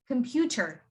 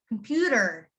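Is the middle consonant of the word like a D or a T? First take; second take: T; D. First: The middle consonant is a clear T sound. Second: The middle consonant is a soft D sound. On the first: "You usually pronounce this as computer" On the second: "in American accent, you would say it as computer... You see that D sound that I'm making?"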